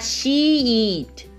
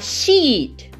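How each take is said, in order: First: The word is said slowly and drawn out. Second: The word is said quickly and clipped. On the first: The speaker calls it wrong. "ele não vai falar she eat, né? Como uma criança" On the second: The speaker calls it right. "ele vai falar muito rápido isso"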